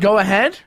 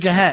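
First: Both words are said fully and separately. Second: The two words are run together, contracted.

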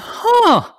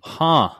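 First: The huh sounds intrigued and surprised. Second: The huh sounds flat and unimpressed. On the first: The news is surprising and interesting. The speaker calls it right. "the huh that I was really hoping for" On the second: The news is not very surprising. The speaker calls it wrong. "That was not the right tone of huh"

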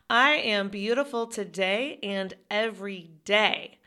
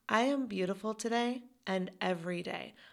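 First: It is said with more force and feeling. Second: It is said with less force and feeling.

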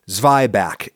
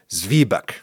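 First: It is said with an American pronunciation. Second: It is said with a German pronunciation.

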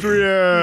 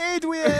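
First: The voice sounds more manly. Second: The voice sounds less manly.

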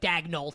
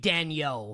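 First: The name is said with an English pronunciation. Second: The name is said with a French pronunciation. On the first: The speaker calls it wrong. "I don't like this, like, Daigneault thing" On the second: The speaker calls it right. "the pronunciation should be Daigneault, right? Like, it should be a French pronunciation"

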